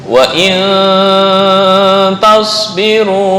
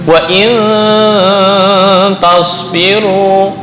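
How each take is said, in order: The two takes are said the same way.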